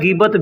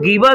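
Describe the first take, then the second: First: The word ends with a t sound. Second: The word ends on an open vowel. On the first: "गीबत भी बोल सकते हैं" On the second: "गीबा भी बोल सकते हैं"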